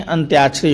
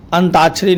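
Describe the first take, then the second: First: "अंत्याक्षरी" said with y, antyakshari; the correct "अंत्याक्षरी" with ty; correct form. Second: "अंताक्षरी" said as antakshari; the incorrect "अंताक्षरी", no y; wrong form. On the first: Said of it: "अंत्याक्षरी होता है". (सही रूप "अंत्याक्षरी") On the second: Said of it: "अंताक्षरी नहीं". (गलत रूप "अंताक्षरी") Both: Shown as a demonstration.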